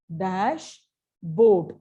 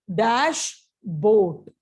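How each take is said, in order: Both takes have the same delivery.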